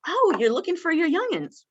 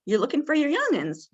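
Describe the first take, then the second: First: High, eager echo of her words; high, interested echo to a confused resident; rephrasing her words. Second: High, curious question; curious question back to a confused resident; asking it back. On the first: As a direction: join her by repeating it back, pitched up. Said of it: "I'd go up to her and I'd say". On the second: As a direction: turn her words into a gentle question, pitched up. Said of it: "really ask some questions". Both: Shown as a demonstration.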